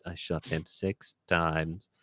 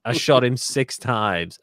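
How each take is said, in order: First: Low, soft, slow delivery; hushed film quote. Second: Slow, drawn-out, emphatic delivery; emphatic film quote. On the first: Host repeating a film line, low hushed impression. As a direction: drop down low and draw it out quietly. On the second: Host quoting a film line, slow and emphatic. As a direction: stretch each word out with force. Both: Acted.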